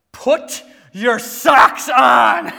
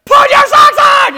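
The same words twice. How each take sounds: First: Loud, slow, drawn-out parental order; exasperated dad raising his voice; rising anger. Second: Full-volume, high-pitched furious yell; dad losing it, screaming the order; anger boiling over. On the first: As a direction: stretch each word out, loudly losing patience. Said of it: "The anger's rising". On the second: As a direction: explode at the kids. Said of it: "I'm on the ledge of anger". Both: Retold or imitated.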